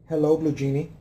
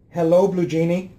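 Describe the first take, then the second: First: The phrase is said at a low volume. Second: The phrase is shouted at a high volume. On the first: "Let me reduce the volume of the voice" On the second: "I have to shout"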